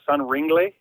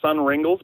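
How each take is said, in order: First: The name ends in a 'glee' sound. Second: The name ends in a plain 'gles' sound. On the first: The speaker calls it right. "apparently they're Sun Ringley" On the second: The speaker calls it wrong. "I call them Sun Ringles"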